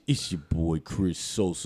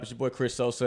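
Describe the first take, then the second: First: It is said slowly, chopped-and-screwed style. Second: It is said at a normal pace.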